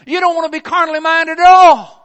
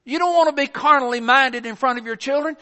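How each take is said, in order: First: Louder, higher, hammering "at all"; preaching shout. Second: Said in the usual way. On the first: Real, not acted. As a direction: drive "at all" home hard. Preacher builds to a climax.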